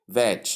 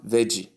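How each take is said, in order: First: "veg" as one beat, VEJ; correct first syllable. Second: "veggie" as two beats, VEJ-ee; wrong first syllables. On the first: Teacher models the start of vegetable, one-syllable VEJ. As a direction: end "veg" on the J sound with no vowel. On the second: Teacher shows what to avoid, two-syllable VEJ-ee. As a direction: add an EE to the end of "veggie". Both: Shown as a demonstration. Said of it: "not veggie".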